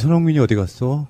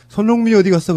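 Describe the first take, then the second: First: It is asked in a warm, gentle tone. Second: It is asked in a sharp, demanding tone. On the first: The asker wants to comfort the player. The speaker calls it right. "다정다감한 말투로" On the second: The asker seems to have come to complain. The speaker calls it wrong. "마치 무슨 항의하러 간 것처럼"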